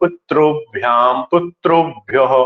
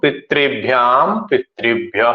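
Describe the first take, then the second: First: The vowel after 'pit' sounds like 'ru'. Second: The vowel after 'pit' sounds like 'ri'. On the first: This is the fully pure pronunciation. The speaker calls it right. "वास्तव में शुद्ध उच्चारण करना तो" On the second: This is the usual regional North Indian pronunciation. The speaker calls it wrong. "इसलिए मैं री ही उच्चारण कर रहा हूं"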